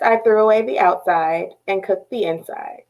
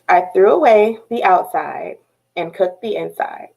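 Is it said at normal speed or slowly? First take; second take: normal speed; slowly. First: It is said at a normal pace. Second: It is said more slowly.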